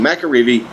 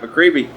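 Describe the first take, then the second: First: A vowel is heard between Mc and reevy. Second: No vowel is heard between Mc and reevy. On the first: The speaker calls it right. "it's it's McAreevy" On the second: The speaker calls it wrong. "I keep saying that wrong"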